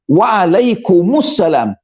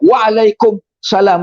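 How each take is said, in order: First: A clear 'mu' syllable comes before 'salam'. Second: There is no 'mu' syllable before 'salam'. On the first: The speaker calls it right. "kumu tu kena ada" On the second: The speaker calls it wrong. "Dia tak betul"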